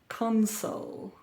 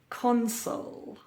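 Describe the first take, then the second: First: The stress is on the first syllable. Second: The stress is on the first syllable.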